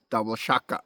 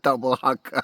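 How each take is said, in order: First: The last word begins with a sh sound. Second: The last word begins with an h sound. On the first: The speaker calls it right. "Now I said right" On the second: The speaker calls it wrong. "It's not double haka"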